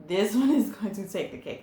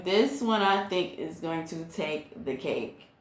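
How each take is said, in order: First: Quicker and laughing through the words; amused, rushed repeat. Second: Said in the usual way. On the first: Real, not acted. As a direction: say it again with a laugh breaking in. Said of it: "laughs as she repeats it". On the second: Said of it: "repeats the line with a laugh".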